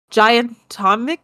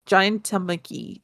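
First: Giantomachy asked with a rising question; unsure pronunciation. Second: Giantomachy said slow, soft, falling; Giantomachy as a correction. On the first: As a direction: try Giantomachy with a questioning lift. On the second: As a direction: settle on Giantomachy quietly and firmly. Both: Shown as a demonstration. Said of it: "I don't know".

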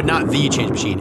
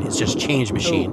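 First: "The" said as a stressed "thee"; correcting, with an emphatic long "thee" for "The". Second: Said in the usual way. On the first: Shown as a demonstration. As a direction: lean on "The", pronouncing it thee.

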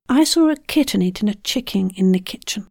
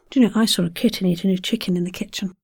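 First: Said in the usual way. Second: Quick kitten chicken kitchen; fast. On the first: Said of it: "second take". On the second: Shown as a demonstration. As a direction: rattle it off fast. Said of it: "tongue twister, takes".

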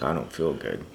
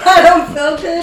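First: Said in the usual way. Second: High, slow mocking sick whine. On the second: Mocking the sick friend in a high drawn-out whine. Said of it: "I'm confused".

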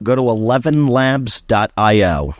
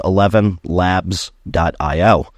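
First: Said in the usual way. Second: "eleven labs dot I O" said slowly, each part spelled out clearly. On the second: Shown as a demonstration. Telling podcast listeners the exact website, slow and clear. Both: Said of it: "That's the word".

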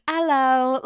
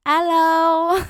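First: A light, half-British "Hello"; a hint of a prim British host's "Hello"; sort of British. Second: High, loud mock French-accented "Hello"; a Paris host who turns cold at tourists, higher and louder; switching to English. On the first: Parisian baker greets a tacky tourist, faintly British. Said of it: "that kind of sounded British". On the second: Host spots tacky tourists, mock French "Hello". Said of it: "when the host sees me and my mom".

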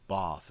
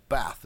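First: Bath with a long A, as in father; Bath, drawn-out "ah" vowel. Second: Bath with a short A, as in cat; Bath, vowel like "trap". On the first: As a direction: say Bath the southern way, "bahth". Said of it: "Bath is a long A". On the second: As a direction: say Bath the northern way, short flat A. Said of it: "Bath is a short A". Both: Shown as a demonstration.

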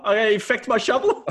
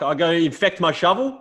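First: Much higher, laughing through the repeat; laughing punchline. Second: Higher mock disbelieving question; lightly hammed-up rhetorical scoff; incredulous old farmer. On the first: Retold or imitated. Retelling the farmer's line to a mate, laughing. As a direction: crack up while repeating the quote. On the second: Old farmer scoffing at the neighbour, mock incredulous.

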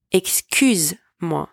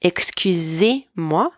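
First: "Excuse-moi" slowly with no é after "excuse"; careful "Excuse-moi" without the é; slow clear demo. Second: "Excusez-moi" slowly with the é of "excusez" sounded; slow, careful "Excusez-moi" with the é; slow clear demo. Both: Shown as a demonstration. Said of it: "One more time".

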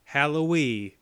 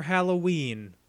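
First: "Halloween" with the final n dropped, Hallowee; playful mispronunciation. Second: Said in the usual way. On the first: Shown as a demonstration. Joking pet pronunciation, "Halloween" said as Hallowee. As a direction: say "Halloween" as Hallowee, ending on a long ee. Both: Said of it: "or as I like to say".

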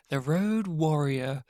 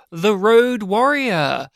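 First: Soft, slow repeat of the title; hushed title echo. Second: Slow, drawn-out Road Warrior; title announcement. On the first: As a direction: drop to a low-key echo. Echoing the announced title. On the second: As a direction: announce the title with showy weight. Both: Pretend.

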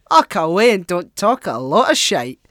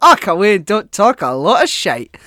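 First: Put-on loud gruff old Scottish man; mock heckle at a politician; quoting an old man. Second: Put-on loud, higher old man's heckle; cranky old man interrupting on the radio; old man heckling. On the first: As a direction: bellow it like a fed-up old man. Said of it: "that's my favourite quote". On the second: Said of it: "this old man just interjects, he's like".

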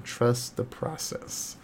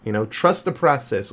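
First: "Trust the process" slow and much softer, like a creepy mantra; ominous mantra. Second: Said in the usual way. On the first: Shown as a demonstration. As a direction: intone "Trust the process" slowly and softly, like a cult motto. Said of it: "that is said many a time". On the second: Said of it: "which is actually a line from the movie".

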